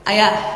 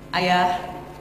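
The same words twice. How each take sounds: First: It is said a bit higher in pitch. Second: It is said at a normal pitch.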